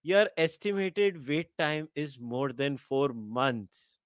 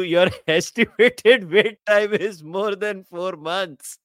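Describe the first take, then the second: First: Slow, soft automated announcement read; deadpan like a recorded hold message; phone menu voice. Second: Louder, slow read with a laugh; incredulous laughing read. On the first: Shown as a demonstration. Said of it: "like a glorified, uh, uh, sales call". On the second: Real, not acted. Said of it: "What the hell?".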